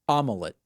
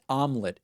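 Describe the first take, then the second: First: The word is said with three syllables. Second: The word is said with two syllables. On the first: "I pronounced it omelet" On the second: "It's two syllables"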